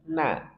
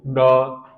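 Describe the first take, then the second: First: The syllable is thin and light, sounding like na. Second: The syllable is thickened, sounding like no. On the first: The speaker calls it right. "Ringan, tarkik" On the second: The speaker calls it wrong. "Jangan sampai ditebalkan menjadi no"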